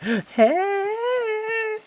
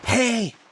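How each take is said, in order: First: It is a whiny, complaining call. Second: It is a quiet, hushed call.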